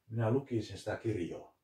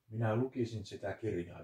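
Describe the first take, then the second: First: It is said in Savo dialect. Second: It is said in standard Finnish.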